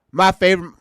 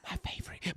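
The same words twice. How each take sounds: First: Said in the usual way. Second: Mocking hushed whisper; teasing slipped whisper; imitating a whisper. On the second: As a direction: whisper it to yourself. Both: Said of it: "Now you arguing with yourself".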